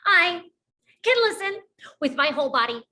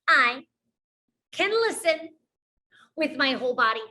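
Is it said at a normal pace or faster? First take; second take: faster; normal. First: It is said a little faster. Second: It is said at a normal pace.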